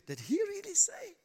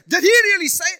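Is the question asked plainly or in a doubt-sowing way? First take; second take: doubt-sowing; plainly. First: It is asked slyly, sowing doubt. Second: It is asked as a plain, neutral question.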